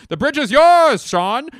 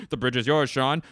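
First: Very high, loud handover yell; hammed-up captain screaming across the bridge; frantic movie impression. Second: Movie crew impression. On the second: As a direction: relay it in a near-normal voice. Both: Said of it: "here's my impression of".

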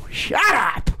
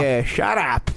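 First: High playful shout; mock shout. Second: Said in the usual way. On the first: Real, not acted. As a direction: yell it back at a teasing friend. Playful retort to teasing friend.

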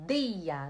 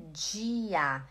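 First: "dia" with a hard Recife D; low "dia", plain D without J; correct dia. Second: "dia" softened to "djia"; drawn-out "dia" with a DJ sound; wrong dia. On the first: Teacher correcting with Recife example, hard-D "dia". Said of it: "Não é dia". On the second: Teacher showing what not to say, "djia". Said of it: "é dia". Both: Shown as a demonstration.

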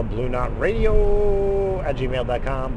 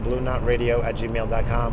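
First: Slow, careful dictation of the address, leaning on "radio". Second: Said in the usual way. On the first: Shown as a demonstration. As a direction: read the address out slowly so it can be written down.

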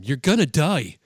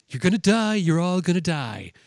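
First: Said in the usual way. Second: Retold warning. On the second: Retells threat, repeats it bigger.

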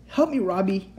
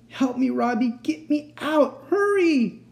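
First: High call for help. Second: Very high plea, climbing to a scream; desperate screaming. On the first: Tied-up child to the boy, calling for help. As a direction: call across the room urgently. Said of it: "I called". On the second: Captive child begs the boy for rescue, screaming. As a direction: build to a drawn-out panicked shriek. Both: A narrator's reading.

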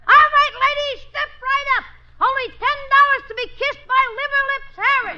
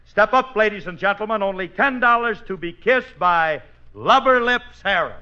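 First: Barker call. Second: Barker pitch. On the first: Acted. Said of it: "Look, it's a cinch". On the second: Shown as a demonstration. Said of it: "All you gotta say is this".

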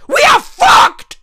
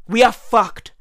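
First: High, drawn-out shout; big, high-pitched outburst, stretched slow; mock alarm. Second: Said in the usual way. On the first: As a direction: yell it out in comic despair. Rant climax, then repeats it calmly.

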